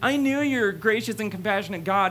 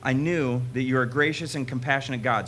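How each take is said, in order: First: It is said in a whining, childish voice. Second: It is read in a plain, even voice.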